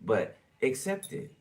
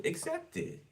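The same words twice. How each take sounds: First: Said in the usual way. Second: Urging, squeaky. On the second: Acted. Reader nudging viewer to accept blessings, squeaky high push. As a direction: accept it squeaked much higher and softer.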